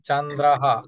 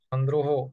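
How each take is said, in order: First: The unmarked vowels sound open, like a. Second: The unmarked vowels sound rounded, like o. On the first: The speaker calls it right. "আকার ধরে উচ্চারণ করতে হবে" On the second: The speaker calls it wrong. "আমরা বলি চন্দ্র, চন্দ্রহ"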